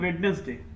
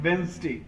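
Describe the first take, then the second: First: The first 'd' and middle syllable are pronounced. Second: The first 'd' is silent, two syllables. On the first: The speaker calls it wrong. "कई लोग इसे pronounce करते हैं" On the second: The speaker calls it right. "The right pronunciation is"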